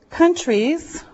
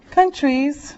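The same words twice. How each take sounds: The two takes are said the same way.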